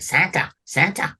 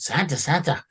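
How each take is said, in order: First: A hint of an excited helper; lightly voiced eager elf. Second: Eager elf voice. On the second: Acted. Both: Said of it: "he talks like that".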